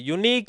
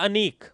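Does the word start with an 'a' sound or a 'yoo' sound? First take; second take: yoo sound; a sound. First: The word begins with a 'yoo' sound. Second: The word begins with a short 'a' sound. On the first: The speaker calls it right. "यूनिक बोला जाएगा" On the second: The speaker calls it wrong. "अगर अनीक बोलते हो तब तो एन आएगा"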